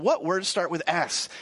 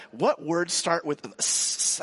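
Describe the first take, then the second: First: Said in the usual way. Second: Slow, drawn-out classroom question with the S of "S?" held long; teacher drawing out the question. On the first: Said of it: "That's the S sound". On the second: Retold or imitated. Preschool teacher asking the class, slow and drawn out. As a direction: ask it slowly, holding "S?" so the children hear the S sound. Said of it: "the teacher is like".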